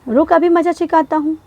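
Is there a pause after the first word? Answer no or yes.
no. The whole sentence runs on without any pause. It does not sound like a threat. The speaker calls it wrong.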